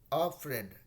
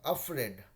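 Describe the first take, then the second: Both takes have the same delivery.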